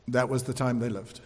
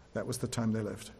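First: "that" leads, falling close; stress on THAT. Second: Much softer, lower, on "time"; soft echo. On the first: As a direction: land on "that" soberly. Repeated sobering statement. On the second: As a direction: let "time" sink in almost under the breath. Softer echo of same words. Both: Acted.

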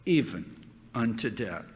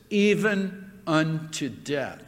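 First: Quiet solemn echo. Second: Said in the usual way. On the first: Acted. Preacher echoing the verse to the congregation, hushed. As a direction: lower and softer, let it sink in.

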